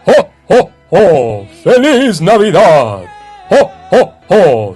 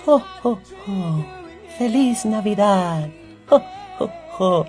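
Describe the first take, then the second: First: It is a big, deep chest voice. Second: It is a small, thin elf voice.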